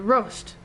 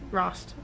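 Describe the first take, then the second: First: The name is said like the word roast. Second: The name is not said like roast. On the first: The speaker calls it wrong. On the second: The speaker calls it right.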